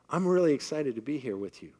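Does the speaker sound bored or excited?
excited. The voice sounds lively and enthusiastic. The words match the feeling. The speaker calls it right.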